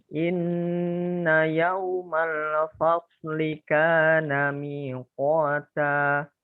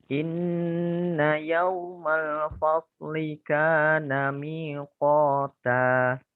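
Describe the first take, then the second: No difference in how they are said.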